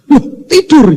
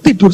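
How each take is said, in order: First: High-pitched retold disbelief; acted astonishment. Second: Said in the usual way. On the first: Father finds his son asleep mid-trip, high mock astonishment. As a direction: exclaim it as if just discovering it.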